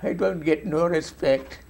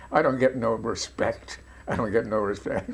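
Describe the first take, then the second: First: The catchphrase slower, in a hammed-up German accent; slow, slightly louder German accent take on "I don't get no respect"; mock German accent. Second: Lightly done Roger Dangerfield catchphrase, a touch of New York Yiddish comic; a hint of the self-pitying stand-up comic's complaint; Roger Dangerfield impression. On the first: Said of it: "living in a German accent". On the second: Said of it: "this comic ... was Roger Dangerfield".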